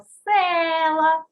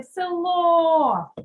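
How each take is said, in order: First: Села with a loud, long-held first Е; stress on first syllable. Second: Село with a loud, long-held final О; stress on final О. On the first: Teacher gives the test word, села stressed hard on Е. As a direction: stretch and hit the Е in села. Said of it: "перевірне слово села". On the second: Teacher shows where stress falls, село drawn out on О. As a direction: stretch and hit the last vowel of село. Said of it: "На букву О паде наголос". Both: Shown as a demonstration.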